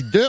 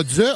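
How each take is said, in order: First: De with a clean D, no z; plain D. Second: De said as dze; wrongly added z. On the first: Correcting newcomers, de with plain D. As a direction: say de with a bare D. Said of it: "on dit de". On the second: Showing the overcorrected way, de as dze. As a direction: put a buzzing z after the D of de. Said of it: "On dit pas de". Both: Shown as a demonstration.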